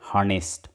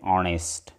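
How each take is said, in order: First: The word begins with an audible h sound. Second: The word begins with a vowel, no h. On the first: The speaker calls it wrong. "आपण असं म्हणत नाही" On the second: The speaker calls it right. "उच्चार जो आहे, pronunciation जे आहे ते अशा पद्धतीने करायचं असतं"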